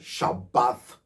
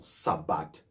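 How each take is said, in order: First: The word begins with an 'sh' sound. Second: The word begins with an 's' sound. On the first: The speaker calls it right. "you have Shabbath" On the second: The speaker calls it wrong. "not Sabbath, because you have Sa"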